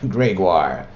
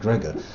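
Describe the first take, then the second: First: The name ends with a 'wahr' sound. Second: The name ends with a plain 'or' sound. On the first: The speaker calls it right. "That says Gregoire" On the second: The speaker calls it wrong. "to pronounce it Gregor"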